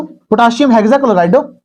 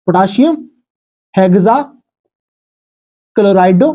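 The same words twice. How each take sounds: First: Said in the usual way. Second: potassium हेक्साक्लोराइडो spelled out slowly, syllable by syllable; slow dictation. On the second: Shown as a demonstration. (Potassium हेक्साक्लोराइडो को धीरे-धीरे खींचकर बोलना)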